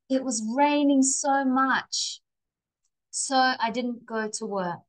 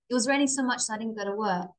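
First: There is a pause after "much". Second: It runs together fast without a pause.

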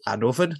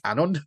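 First: A v sound comes before the final n. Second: No v sound comes before the final n. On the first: The speaker calls it right. "I got told by Christopher Hughes that it's Annwfn" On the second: The speaker calls it wrong. "not Annwn"

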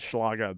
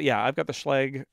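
First: The name gets a German-style pronunciation. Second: The name gets an Americanized English pronunciation. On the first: This is how the word reads in German. The speaker calls it wrong. "as a German student, I really want to call it Schlage" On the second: This is how the company says it. The speaker calls it right. "that's how they pronounce it"

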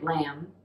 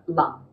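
First: The vowel is an open 'a' as in cat. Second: The vowel is a short 'u' as in cut. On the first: The speaker calls it wrong. "It's not the a sound like lam" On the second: The speaker calls it right. "It would be more like a lum"

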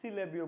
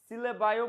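First: The word ends with an 'ee' sound. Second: The word ends with an 'eye' sound. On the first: "সিলেবিও বলতে পারো" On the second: "সিলেবাইও বলতে পারো"

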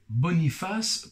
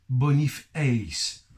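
First: The name ends in the usual French '-face' sound. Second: The ending is said as the English word 'Ace'.

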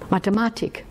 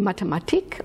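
First: The word has the Austrian stress pattern. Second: The word has the stress pattern common in Germany. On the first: "wenn Sie aus Österreich stammen, dann sagen Sie Mathematik" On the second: "Also sagen Sie Mathematik"

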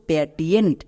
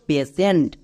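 First: The middle consonant is a t sound. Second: The middle consonant is an sh sound. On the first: The speaker calls it wrong. "এর উচ্চারণ করছো প্যাটিয়েন্ট। প্যাটিয়েন্ট হবে না" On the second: The speaker calls it right. "টিয়েন্ট না, সেন্ট"

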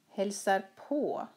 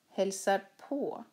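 First: The stress falls on the particle på. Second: The same.

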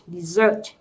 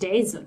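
First: The stress is on the second syllable. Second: The stress is on the first syllable. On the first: It means a sweet course after a meal. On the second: It means a sandy, dry region.

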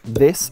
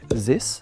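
First: The word begins with a soft 'th' sound. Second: The word begins with a 'z' sound. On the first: The speaker calls it right. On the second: The speaker calls it wrong.

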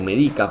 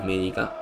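First: The stress is on the second syllable. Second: The stress is on the first syllable. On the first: The speaker calls it right. "porque no tiene tilde" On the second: The speaker calls it wrong. "No es Médica"

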